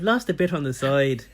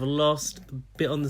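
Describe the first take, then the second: First: It is said in a put-on Irish accent. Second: It is said in the speaker's usual English accent.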